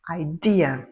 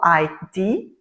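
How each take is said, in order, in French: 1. L'accent est sur la deuxième syllabe. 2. L'accent est sur la première syllabe. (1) "il faut mettre l'accent sur la deuxième" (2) "si vous ne dites pas correctement"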